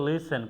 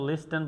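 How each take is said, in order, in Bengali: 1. t ধ্বনিটি নীরব। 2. t ধ্বনিটি উচ্চারিত হয়। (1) "আমরা টিকে উজ্জ্বল রাখছি" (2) "কখনো লিস্টেন বলা যাবে না"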